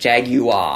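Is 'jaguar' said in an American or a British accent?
British. It is said in a British accent. "In English, it's like jaguar"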